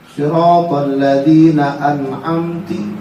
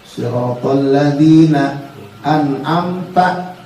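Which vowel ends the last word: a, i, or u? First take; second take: i; a. First: The last word ends with an i vowel. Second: The last word ends with an a vowel. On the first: The speaker calls it wrong. "dikasrohin an'amti" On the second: The speaker calls it right. "Harusnya kan an'amta"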